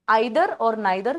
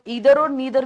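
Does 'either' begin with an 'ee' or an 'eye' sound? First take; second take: eye; ee. First: The words begin with an 'eye' vowel sound. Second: The words begin with an 'ee' vowel sound. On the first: "आते हैं आइदर और नाइदर" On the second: "लोग ईदर और नीदर भी कहते हैं"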